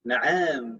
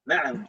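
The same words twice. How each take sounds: First: The word is dragged out and drawn long. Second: The word is said short, without dragging. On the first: The speaker calls it wrong. "agak diseret-seret" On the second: The speaker calls it right. "nggak ada intonasi uh, diseret seperti itu"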